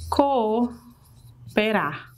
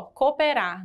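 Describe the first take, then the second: First: Co-o-pe-rar said slowly, each vowel separate; syllables pulled apart. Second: Said in the usual way. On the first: Shown as a demonstration. Teacher sounding out cooperar slowly. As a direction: stretch cooperar so both o's are heard apart. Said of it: "Por exemplo". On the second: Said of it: "você pronuncia tudo ó".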